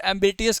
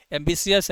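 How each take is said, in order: First: "एम्बिटियस" with a T sound in the middle; mispronounced ambitious. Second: "एम्बिशियस" with a SH sound in the middle; corrected pronunciation. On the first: Teacher quoting how some people say it, "एम्बिटियस" with a T sound. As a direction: say "एम्बिटियस" with "टि" in place of "शि". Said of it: "कुछ लोग इसे एम्बिटियस कहते हैं". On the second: Teacher correcting some people's version, "एम्बिशियस" with a SH sound. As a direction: say "एम्बिशियस" with "शि", not "टि". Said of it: "अबे भाई एम्बिशियस है ये". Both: Shown as a demonstration.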